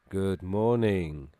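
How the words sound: It sounds lifeless and half asleep.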